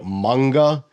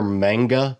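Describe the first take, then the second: First: The vowels are long, open 'ah' sounds. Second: The first vowel sounds like in 'mango'. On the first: This is the Japanese pronunciation. "in Japanese, it would be manga, the long A sound" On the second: This is the usual American pronunciation. "in America, you typically hear manga because the word looks like mango"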